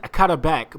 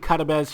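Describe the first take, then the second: First: The name ends with a k sound. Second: The name ends with a z sound. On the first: This is how the name looks written. The speaker calls it wrong. "I know it says Karabek" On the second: This is how the name is really said. The speaker calls it right. "but it's actually Carabez"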